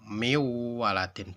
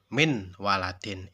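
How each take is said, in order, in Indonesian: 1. Huruf n melebur ke dalam w dengan dengung. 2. Huruf n dibaca jelas sebelum w. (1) "Bacanya seperti itu" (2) "Tidak boleh seperti ini. ... Itu salah"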